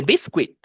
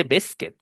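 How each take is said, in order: First: Biscuit mispronounced "bis-kwit"; wrong pronunciation. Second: Biscuit said "BIS-kit"; correct pronunciation. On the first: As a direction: sound the U in biscuit as W. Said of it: "no se dice biscuit". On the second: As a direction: drop the U sound in biscuit. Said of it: "dice biscuit". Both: Shown as a demonstration.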